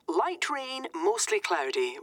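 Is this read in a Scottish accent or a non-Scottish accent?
Scottish. It is read in a Scottish accent.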